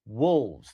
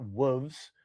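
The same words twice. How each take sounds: First: "wolves" with the L clearly voiced; lower, deliberate L in "wolves"; L sounded. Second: "wolves" with no L, as "woovs"; wrong wolves. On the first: Co-host teaching the host, "wolves" with its L. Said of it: "There's an L". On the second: Co-host showing the host's mistake, "wolves" said L-less. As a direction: drop the L from "wolves". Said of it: "not wolves". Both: Shown as a demonstration.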